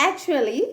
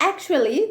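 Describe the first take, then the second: The two takes are said the same way.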